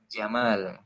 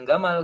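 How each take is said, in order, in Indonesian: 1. Nama itu diawali dengan bunyi j. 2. Nama itu diawali dengan bunyi g keras. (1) "tapi Jamal" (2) "Bukan Gamal sebenarnya"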